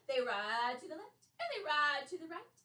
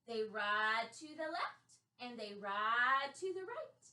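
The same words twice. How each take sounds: First: It is said at a faster pace. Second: It is said at a normal pace.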